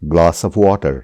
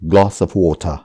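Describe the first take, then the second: First: Glass sounds British and water sounds American. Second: Both words are said in a British accent. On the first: "glass ब्रिटिशले जसरी भन्नुभयो, water अमेरिकनले जसरी भन्नुभयो" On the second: "ब्रिटिशले यसलाई भन्छन्"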